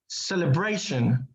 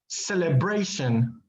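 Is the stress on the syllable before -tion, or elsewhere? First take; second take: before -tion; before -tion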